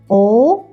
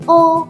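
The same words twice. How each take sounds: First: The pitch rises like a question. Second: The pitch stays high and level. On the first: "like question what?" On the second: "do re mi fa sol"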